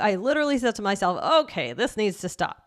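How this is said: It is said expressively, with a put-on voice. The speaker calls it right. "you kind of put on a voice in a little way"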